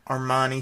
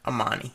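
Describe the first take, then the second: First: The name has an R sound after the first vowel. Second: The name has no R sound after the first vowel.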